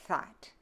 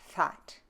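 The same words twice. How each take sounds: No difference in how they are said.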